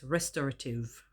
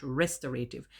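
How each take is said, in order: First: "restorative" as res-TOR-uh-tiv, weak middle; correct pronunciation. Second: "restorative" with a long AY, res-tor-AY-tiv; the mistaken "restorative", ending -ay-tiv; wrong pronunciation. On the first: Vlogger giving viewers the corrected word, careful pronunciation. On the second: Vlogger showing viewers the wrong version, mistaken pronunciation. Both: Shown as a demonstration. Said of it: "It's not restorative".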